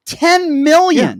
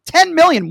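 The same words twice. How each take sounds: First: Much higher and louder, slow and drawn out; host stressing the toll, loud and slow; emphatic repeat. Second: Much higher and louder, punched on Ten; host repeating the toll, loud; emphatic repeat. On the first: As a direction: stretch Ten million to let it sink in. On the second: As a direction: hit Ten hard and fast. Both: Acted. Host hammers home a number.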